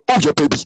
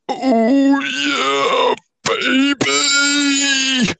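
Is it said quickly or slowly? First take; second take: quickly; slowly. First: It is said quickly all the way through. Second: It is said slowly, building to the end.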